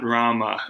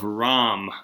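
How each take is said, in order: First: The name ends on a final a vowel. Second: The name ends on the consonant m. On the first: The speaker calls it wrong. "not Rama" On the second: The speaker calls it right. "it's the Epic of Ram, R-A-M"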